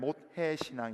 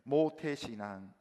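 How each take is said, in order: First: The word is said quickly, its sounds running together. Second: The word is said at a normal, clear pace. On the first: A faith that says it can do nothing. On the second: Faith one was born into.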